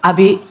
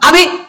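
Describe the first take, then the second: First: It is called at a normal, low pitch. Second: It is called at a very high pitch.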